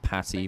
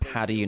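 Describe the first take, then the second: First: The middle consonant is a sharp t sound. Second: The middle consonant is a soft d sound. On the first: The speaker calls it wrong. "not Patty" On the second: The speaker calls it right. "it's Paddy"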